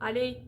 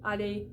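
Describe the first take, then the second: Both takes have the same delivery.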